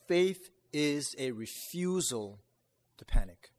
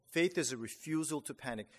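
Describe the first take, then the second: First: Faith is a refusal to panic, slow with a loud punched panic; slow emphatic quote. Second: Said in the usual way. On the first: Shown as a demonstration. Preacher quoting Lloyd-Jones to the congregation, slow and emphatic. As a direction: lean hard on panic, slowly. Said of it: "once said". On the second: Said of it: "restated plainly".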